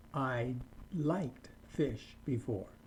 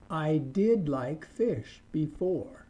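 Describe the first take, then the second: First: Said in the usual way. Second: Slow, with "did" leaned on hard; stress on did. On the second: Shown as a demonstration. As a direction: drag it out and press "did". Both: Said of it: "you can just use the word did".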